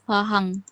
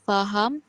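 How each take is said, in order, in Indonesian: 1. Diucapkan dengan bunyi Bugis. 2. Diucapkan dengan bunyi Melayu Standar. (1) "Untuk Bahasa Bugis" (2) "Untuk Bahasa Melayu Standard"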